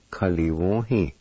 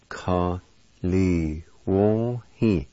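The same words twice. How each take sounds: First: "Kaliwohi" joined as one word; whole-word demo. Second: "Ka, li, wo, hi" with each syllable held apart; syllable-by-syllable demo. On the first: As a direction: say "Kaliwohi" without breaks, clearly. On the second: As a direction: sound out "Ka, li, wo, hi" piece by piece. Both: Shown as a demonstration. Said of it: "is pronounced like this".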